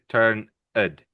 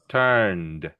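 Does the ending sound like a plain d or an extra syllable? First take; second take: extra syllable; plain d. First: The ending is said as an extra syllable. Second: The ending is said as a plain d. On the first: The speaker calls it wrong. "you don't say turn id" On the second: The speaker calls it right. "We say turned"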